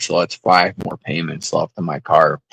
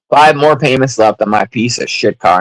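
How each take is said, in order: First: Said in the usual way. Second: Five punched loud and falling; stress on Five. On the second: Real, not acted. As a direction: hit the word Five hard. Repeats louder with emphasis.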